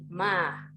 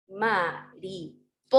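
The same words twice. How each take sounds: First: "ma-ri-po-sa" in evenly separated syllables, pauses between. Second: "mariposa" read slowly by syllables, with emphasis on "po"; stress on PO. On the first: Teacher separating the word for pupils, even "ma... ri... po... sa". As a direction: split "mariposa" into four even beats, no syllable singled out. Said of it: "Ahí lo separé silábicamente, por sílaba". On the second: Teacher rereading the split word, slow "ma-ri-PO-sa" stressing PO. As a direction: separate "ma-ri-PO-sa" and lean on the PO. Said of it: "donde yo hice como el énfasis en el po".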